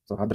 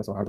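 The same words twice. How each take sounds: First: सौहार्द mispronounced with an extra r at the end; wrong form. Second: सौहार्द ending in a plain rd; correct form. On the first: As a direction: say सौहार्द wrongly, ending in -dra. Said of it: "नहीं होता". (सौहार्द का गलत उच्चारण, अंत में द्र) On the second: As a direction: say सौहार्द with r before the final d. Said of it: "सौहार्द होता है". (सौहार्द का सही उच्चारण, अंत में र्द) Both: Shown as a demonstration.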